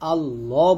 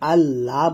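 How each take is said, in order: First: The L sound is heavy and full. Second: The L sound is light and thin. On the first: The speaker calls it right. "এখানে আল্লাহ বলতে হবে, এখানে মোটা করতে হবে" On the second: The speaker calls it wrong. "কোরআন মাজিদ পড়ার সময় আল্লাহ বলা যাবে না"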